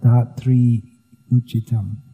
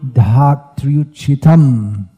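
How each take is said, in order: First: The two words are split with a break. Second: The two words flow together without a break. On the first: The speaker calls it wrong. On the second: The speaker calls it right. "It's flowing"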